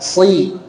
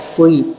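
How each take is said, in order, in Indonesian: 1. Suku kata ini diucapkan tanpa memonyongkan bibir. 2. Suku kata ini diucapkan dengan bibir dimonyongkan dan membulat. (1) "Nanti lepas, jangan sampai monyong" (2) "Kalau sui kan jadi monyong ya"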